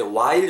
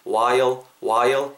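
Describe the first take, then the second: First: Said in the usual way. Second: "while" glided as wa-yol; "while" with a dark, rounded l ending; two-beat while. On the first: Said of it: "요렇게 하셔도 되지만은". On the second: Shown as a demonstration. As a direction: let "while" open into a second syllable, wa-yol. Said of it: "약간 좀 while 정도로 듣기죠".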